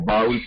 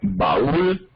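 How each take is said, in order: First: The a and u merge into one syllable. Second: The a and u are in separate syllables. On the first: This is how some people say it colloquially. "que dicen algunas personas, allí hay diptongo" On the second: This is the standard pronunciation. "la palabra estándar de español maíz o baúl, ¿sí?, allí no hay diptongo"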